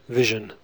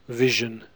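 No difference in how they are said.

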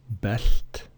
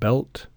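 First: The L is light and unvoiced. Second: The L is dark and voiced. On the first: The speaker calls it wrong. "Not belt" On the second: The speaker calls it right. "but belt"

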